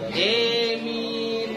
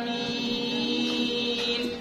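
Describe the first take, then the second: First: The first vowel is tilted toward an e sound. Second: It has a plain a vowel and single m. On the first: This is the imalah reading. "Itu imalah" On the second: This is the ordinary reading used locally. "Baca yang biasa saja"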